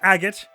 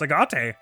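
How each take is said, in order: First: It is said as an ordinary English word. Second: It is said like a Japanese word. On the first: The speaker calls it right. "this word is pronounced agate" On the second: The speaker calls it wrong. "if it's Japanese, I guess that's agate"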